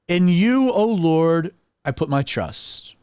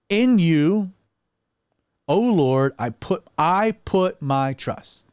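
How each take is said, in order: First: It is said as a confident statement. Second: It is said hesitantly, with faltering uncertainty.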